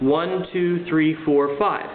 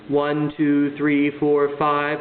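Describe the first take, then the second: First: It is said in a natural speaking voice. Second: It is said in a flat robot monotone.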